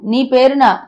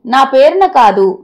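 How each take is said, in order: First: నీ stressed, పేరున falling to a close. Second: నా pressed firmly, slow and louder; stress on నా. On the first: Wife corrects her husband, landing hard on నీ. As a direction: hit నీ, let పేరున fall. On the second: Wife corrects her husband, stressing నా slowly and firmly. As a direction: lean on నా, then పేరున. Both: A narrator's reading. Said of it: "సర్ది చెప్పింది భార్గవి".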